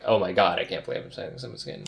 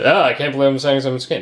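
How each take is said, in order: First: It sounds amazed and reverent. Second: It sounds put off and negative.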